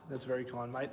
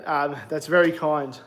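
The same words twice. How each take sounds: First: Softer echo of the thanks; soft repeat. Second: Said in the usual way. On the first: Real, not acted. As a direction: repeat the thanks under your breath, much softer. Thanking a viewer, then repeating.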